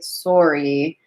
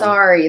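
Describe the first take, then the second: First: It is said with a Canadian accent. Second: It is said with an American accent.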